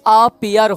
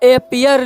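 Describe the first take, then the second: First: The first vowel is an open 'ah' sound. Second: The first vowel is an 'eh' sound. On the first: "इसका उच्चारण आ हो जाएगा" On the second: "कहीं कहीं ए होता है"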